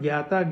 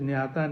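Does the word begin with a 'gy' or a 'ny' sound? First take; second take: gy; ny. First: The word begins with a 'gy' sound. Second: The word begins with a 'ny' sound. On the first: This is the usual northern Indian pronunciation. "it can be called Gyata, ... In North India, that is the more prevalent pronunciation" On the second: This is the usual southern Indian pronunciation. "South India, it is Nyata"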